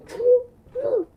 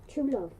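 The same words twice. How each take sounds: First: Loud high shout. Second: Said in the usual way. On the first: Shown as a demonstration. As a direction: belt out true love. Repeats the phrase shouted.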